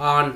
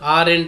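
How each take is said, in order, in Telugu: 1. ఆ పదాన్ని ఒక్క అక్షరంతో పలుకుతారు. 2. ఆ పదాన్ని రెండు అక్షరాలతో పలుకుతారు. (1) "ఆంట్ అంటాం" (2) "ఆరెంట్ కరెక్ట్ ప్రొనౌన్సియేషన్ కాదు"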